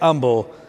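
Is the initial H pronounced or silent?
silent. It is said the Texas way, H silent.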